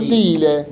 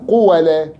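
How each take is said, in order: First: The first syllable has an 'ee' vowel. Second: The first syllable has an 'oo' vowel. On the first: "كسر ما قبل الألف فتقلب الألف ياء" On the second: "إخلاص ضم أوله فيجب قلب الألف واوا"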